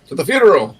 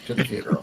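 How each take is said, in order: First: The line is said in a cheerful, upbeat tone. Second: The line is said in a somber, subdued tone. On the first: The speaker calls it wrong. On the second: The speaker calls it right.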